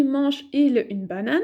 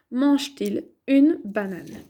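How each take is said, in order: First: Mange-il with no T sound before IL; missing linking T. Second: Mange-t-il with a clear T sounded before IL; linking T. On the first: Teacher showing what won't work, mange-il without linking T. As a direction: say "mange-il", running MANGE straight into IL without a T. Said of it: "ça ne va pas aller". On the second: Teacher giving the corrected question, mange-t-il with linking T. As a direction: say "mange-t-il", putting a T between MANGE and IL. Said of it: "Je vais ajouter tiret, T, tiret". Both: Shown as a demonstration.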